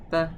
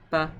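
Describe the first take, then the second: First: The vowel is clipped short. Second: The vowel is clipped short.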